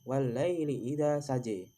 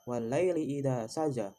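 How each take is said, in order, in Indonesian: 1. Vokal akhirnya condong ke 'e'. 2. Vokal akhirnya adalah 'a' terbuka yang biasa.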